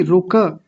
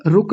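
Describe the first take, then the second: First: रुक with an audible a after k; correct full ka. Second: रुक stopped dead on k; wrong clipped ending. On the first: Teacher correcting the slip, रुक with full final ka. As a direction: say रुक as two syllables, ru-ka. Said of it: "क को पूरा रखेंगे". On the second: Teacher showing the slip, रुक ending on bare k. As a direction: cut रुक off with no final vowel. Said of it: "रुक नहीं". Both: Shown as a demonstration.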